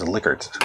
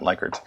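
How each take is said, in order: First: Likert said LICK-ert, short i; original pronunciation. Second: Likert said LIKE-ert, long i; changed pronunciation. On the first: Lecturer giving the guy's actual name, LICK-ert pronunciation of Likert. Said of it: "the guy's name actually was". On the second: Lecturer rejecting the popular form, LIKE-ert pronunciation of Likert. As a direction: say Likert with "like" at the start. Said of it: "not Likert". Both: Shown as a demonstration.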